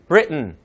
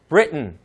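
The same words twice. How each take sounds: No difference in how they are said.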